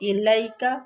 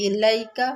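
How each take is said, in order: First: The 'lai' sound is soft and quick. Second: The 'lai' sound is soft and quick.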